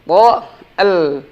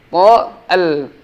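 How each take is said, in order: Both takes have the same delivery.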